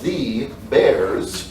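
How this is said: Bears ends with a buzzing z sound.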